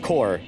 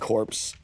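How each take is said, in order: First: The word is said without any P sound. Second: The word is said with a P sound. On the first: The speaker calls it right. "It's pronounced core" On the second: The speaker calls it wrong. "I like to pronounce the P because I'm dumb"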